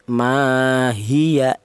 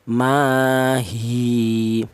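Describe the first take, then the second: First: The vowel is short and runs into the next word. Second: The final vowel is held long, then stops. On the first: The reader continues into the next word. "Kalau diwasolkan hilang matobi'inya menjadi pendek" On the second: The reader stops at this word. "kita wakaf di sini, ada matobi'inya yaitu dibaca panjang"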